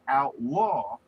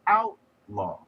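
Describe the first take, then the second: First: The stress is on the second syllable. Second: The stress is on the first syllable. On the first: It is used as a verb. "a verb that has the accent on the second syllable" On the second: It is used as a noun. "put the accent on the first syllable, you have created a noun"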